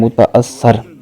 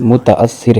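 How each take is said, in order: First: The last vowel is an 'a' sound. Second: The last vowel is an 'i' sound. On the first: The speaker calls it wrong. "लफ्ज़ बोलते हैं" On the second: The speaker calls it right. "दुरुस्त लफ्ज़"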